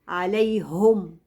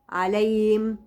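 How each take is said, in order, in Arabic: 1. الهاء تُنطق كحرف صامت واضح. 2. الهاء تخرج مجرد هواء فيه نفس. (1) "لا" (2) "بسمعها هوا"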